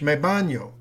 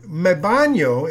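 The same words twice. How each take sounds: First: Said in the usual way. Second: "me baño" spelled out slowly, Spanish ñ; slowed teaching example; slow demo. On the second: Shown as a demonstration. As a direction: lay out "me baño" slowly for the class. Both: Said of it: "is how they say it in Spanish".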